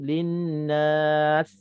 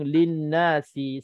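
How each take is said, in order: First: The word ends on the consonant s. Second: The word ends with a short final vowel. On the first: The reader stops at this word. "kalau kita berhenti" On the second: The reading continues into the next words. "Kalau kita sambung"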